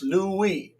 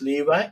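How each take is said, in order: First: The middle consonant is a w sound. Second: The middle consonant is a v sound. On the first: "If you pronounce it wa, it's Louis" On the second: "If you pronounce it va, it's Levi"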